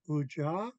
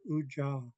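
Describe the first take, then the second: First: The pitch rises at the end. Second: The pitch stays low and flat. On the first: The speaker calls it wrong. "we don't go Uja" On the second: The speaker calls it right. "It just stays flat"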